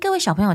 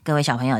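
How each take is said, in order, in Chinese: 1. 声音听起来开朗、明亮，很高兴。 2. 声音听起来压下去了，很不开心。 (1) "你看这个声音是不是比较好？" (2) "那你听到我声音压下去，就是这个声音。"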